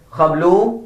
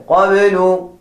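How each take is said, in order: First: قبل with kh, rising; wrong pronunciation. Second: قبل with qaf and an added i; correct pronunciation. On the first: Teacher shows students the wrong قبل. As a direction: say قبل as khablu. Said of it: "Do not say قبل". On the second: Teacher gives students the correct قبل. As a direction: say قبل as qabilu, firm. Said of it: "Say قبل". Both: Shown as a demonstration.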